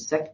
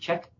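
First: The surname begins with an s sound. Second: The surname begins with a ch sound. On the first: "Some people call Aaron Seck" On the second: "some people call Aaron Check"

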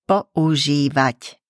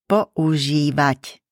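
Both takes have the same delivery.

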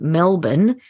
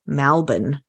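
First: The first vowel sounds like 'e' in 'bed'. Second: The first vowel sounds like 'a' in 'bad'. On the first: "instead of saying Melbourne" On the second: "many people are now saying Malbon"

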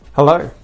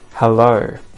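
First: It is said fast. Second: It is said slowly. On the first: "then I'll say them fast" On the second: "first slow"

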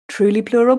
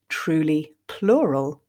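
First: The phrase is said at a quicker, natural pace. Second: The phrase is said slowly and carefully.

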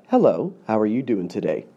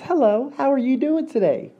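First: It is said without a smile. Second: It is said with a smile.

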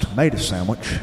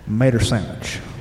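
First: The first T of tomato is dropped. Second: Mater with the W in sandwich left silent. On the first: "The T is always silent" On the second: "the W in sandwich is silent"

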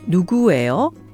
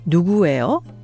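Both takes have the same delivery.

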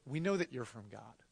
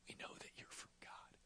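First: It is said in a normal speaking voice. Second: It is said in a hushed whisper.

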